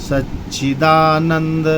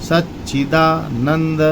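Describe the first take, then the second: The two takes are said the same way.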